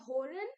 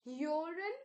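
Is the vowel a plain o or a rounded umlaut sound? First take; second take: plain o; umlaut. First: The vowel is a plain o sound. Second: The vowel is a rounded umlaut sound. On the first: The speaker calls it wrong. "So don't say hören" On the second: The speaker calls it right. "There's a u kind of sound because of the umlaut"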